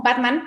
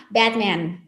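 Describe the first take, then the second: First: "Batman" with open Spanish A sounds. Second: "Batman" as bea-tmean, with both vowels between A and E; "Batman" with English vowels. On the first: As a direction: say "Batman" the way everyone in Mexico says it. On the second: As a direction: stretch both A's in "Batman" toward E, as in English. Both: Shown as a demonstration. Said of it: "Esa es la pronunciación correcta en el inglés".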